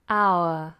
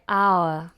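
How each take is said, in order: First: It is said with a long gliding vowel. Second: The same.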